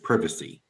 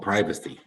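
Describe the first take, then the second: First: It is said with a different regional pronunciation. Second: It is said with the speaker's usual pronunciation. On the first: "or in some areas" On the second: "It's called privacy"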